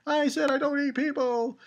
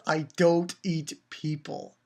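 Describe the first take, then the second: First: High, put-on whiny insistence; mock protest. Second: Said in the usual way. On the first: Giant insisting to the scared kids, high mock protest. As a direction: repeat it in a high character voice. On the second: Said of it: "And then she says".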